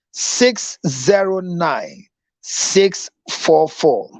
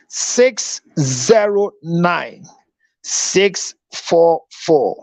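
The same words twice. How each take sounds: First: Slow, deliberate digits; slow number read again. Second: Very slow, spelled-out digits; slow number read. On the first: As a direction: say each digit slowly and clearly. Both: Shown as a demonstration. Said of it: "Your number again".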